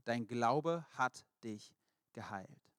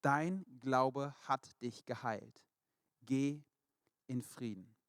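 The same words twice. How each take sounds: First: Very slow, weighted, tender; slow, solemn blessing. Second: Very slow and deliberate, each word weighed; slow, solemn blessing. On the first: Jesus blessing the healed blind man, slow and tender. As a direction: let each word land gently. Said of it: "sagte Jesus zu ihm". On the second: Jesus tenderly blessing the healed woman, slow and solemn. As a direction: lay the words down gently like a blessing. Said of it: "sagte Jesus zu ihr". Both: Acted.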